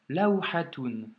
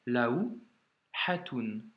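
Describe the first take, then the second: First: Laouhatoun read slowly and clearly; slow demo reading. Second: Laouhatoun stretched very slowly, syllable by syllable; very slow repeat. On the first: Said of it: "Et enfin". (laouhatoun lu lentement) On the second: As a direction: drag Laouhatoun out slowly for the learner. (Laouhatoun répété très lentement) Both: Shown as a demonstration.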